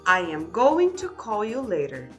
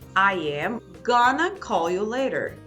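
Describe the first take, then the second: First: Both words of 'going to' are said in full. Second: 'Going to' is reduced to 'gonna'. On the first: "essa frase aqui está com a estrutura completa" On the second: "Repare que não usamos mais o to aqui"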